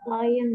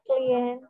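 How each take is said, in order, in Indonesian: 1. Kata klien diucapkan cara Inggris, seperti client. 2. Kata klien diucapkan cara Indonesia, seperti klee-en. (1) "kalau pakai bahasa Inggris sebutnya klien" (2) "Kalau pakai bahasa Indonesia sebutnya klien"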